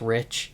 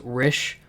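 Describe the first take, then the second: First: The word ends with a 'ch' sound. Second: The word ends with an 'sh' sound. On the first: This is the ordinary word. "which is just Rich" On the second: This is how the artist says the title. "he pronounces it as [name]"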